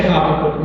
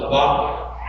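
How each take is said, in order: First: Habakkuk with the stress on the first syllable; Habakkuk, front-stressed as Americans say it; American pronunciation. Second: Habakkuk with the accent on the second syllable; Habakkuk, stressed on BAK; Hebrew pronunciation. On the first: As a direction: say Habakkuk the American way, HAB-uh-kuk. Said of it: "I say it the American way". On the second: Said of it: "The accent's on the second syllable". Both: Shown as a demonstration.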